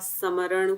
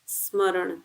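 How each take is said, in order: First: An extra vowel separates the s and m sounds. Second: The s and m sounds are joined without a vowel. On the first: The speaker calls it wrong. "कुछ भी ऐसा गलत बोलते हैं तो अच्छा impression नहीं जाता" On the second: The speaker calls it right. "शुद्ध बोलने की कोशिश"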